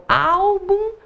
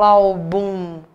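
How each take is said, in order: First: "álbum" slow, first syllable raised high and drawn out; tônica em ÁL. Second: "álbum" said wrongly as al-BUM, last syllable long; tônica em BUM. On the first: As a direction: lift the AL of "álbum", slowly. ("álbum" devagar, levantando bem o "ál") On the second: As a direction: put the stress on the BUM of "álbum". ("álbum" dito como "albúm", forçando a última sílaba) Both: Shown as a demonstration. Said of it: "pronuncia devagar e tenta levantar".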